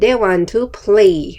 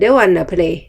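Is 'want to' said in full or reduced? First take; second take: full; reduced. First: Want to is said as two full words. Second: Want to is reduced to one word, wanna.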